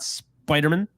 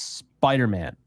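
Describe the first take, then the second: First: "Spider-Man" with the last syllable swallowed to "mun"; wrong pronunciation. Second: "Spider-Man" joined, with a full clear "Man"; correct pronunciation. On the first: Host corrects listeners on the name, "Spider-Man" deliberately slurred to "Spidermun". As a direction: run "Spider-Man" together like a surname, "SPY-der-mun". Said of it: "It's Spider-Man". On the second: Host gives listeners the proper name, "Spider-Man" with "Man" fully sounded. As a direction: say "Spider-Man" as one name, "SPY-der-MAN", falling at the end. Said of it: "It is not Spider-Man".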